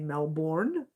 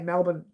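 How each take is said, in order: First: It is said the overseas way, with full 'bourne'. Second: It is said the Australian way, with reduced 'bn'.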